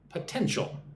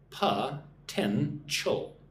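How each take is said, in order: First: It is said at normal speed, smoothly. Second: It is said slowly, syllable by syllable.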